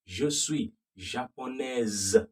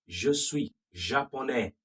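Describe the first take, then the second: First: Japonaise said slowly with the S buzzed like a Z. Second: Japonais ending on an open vowel with no S sound; silent S. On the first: Teacher slowly contrasting the female ending. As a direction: lean on the Z sound in japonaise. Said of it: "The S is now pronounced like a Z". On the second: Teacher contrasting the silent S of the male form. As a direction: cut japonais off before any S. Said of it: "The S is silent for the male". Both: Shown as a demonstration.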